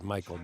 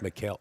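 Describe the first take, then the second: First: The name is said like English Michael. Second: The name is said in a non-English form. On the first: This is how Americans say the name. "In the United States, we do pronounce it Michael" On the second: This is the name's actual form. "but it is Mikhail"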